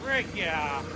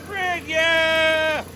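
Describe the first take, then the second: First: Said in the usual way. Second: High, thrilled whoop of joy; excited cheer. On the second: Real, not acted. Man cheering as his old engine starts, high excited whoop. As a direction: squeal it out as the engine fires.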